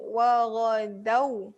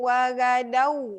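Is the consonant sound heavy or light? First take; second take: heavy; light. First: The consonant is said heavy and thick. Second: The consonant is said light and thin. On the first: The speaker calls it right. "kat sini tebal" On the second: The speaker calls it wrong. "tak boleh"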